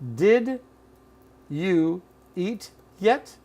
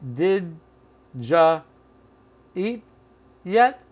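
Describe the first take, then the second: First: Every word is said fully and separately. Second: The word you is reduced to ja. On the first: "Here it is" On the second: "Or did ja eat yet?"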